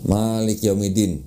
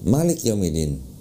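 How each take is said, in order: First: The vowels are drawn out long. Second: The vowels are kept short and quick. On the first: This is how it is read in Indonesia. "kalau kita baca" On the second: This is how it is read in Morocco. "cepet ya, nggak nggak dipanjangin gitu"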